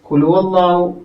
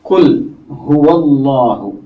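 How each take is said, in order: First: Qul runs straight into huwa without separation. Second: Qul is cleanly separated from the following huwa. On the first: The speaker calls it wrong. "ഖുൽഹുവല്ലാഹു എന്ന് പറഞ്ഞു പോകുന്ന ഒരു രീതിയുണ്ട്" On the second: The speaker calls it right. "അങ്ങനെ മുറിച്ചു വായിക്കണം"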